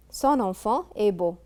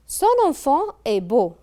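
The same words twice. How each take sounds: First: Said in the usual way. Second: Raised, louder reading of the example sentence; announcing the example. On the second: Shown as a demonstration. Teacher announcing exercise sentence to pupils, raised and louder. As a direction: call the sentence out clearly to the class.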